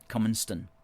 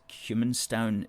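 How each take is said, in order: First: The last syllable sounds like 'ston'. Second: The last syllable sounds like 'town'. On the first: The speaker calls it right. "is pronounced Cumanston" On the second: The speaker calls it wrong. "what I said was Cumanstown"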